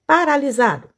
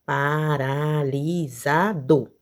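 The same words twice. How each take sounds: First: Said in the usual way. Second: "Paralisado" drawn out slowly, pa-ra-li-sa-do; syllable by syllable. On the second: Shown as a demonstration. Teacher counting syllables for pupils, slow syllable-by-syllable "Paralisado". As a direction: stretch each syllable of "Paralisado". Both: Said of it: "abra a boca pra pronunciar".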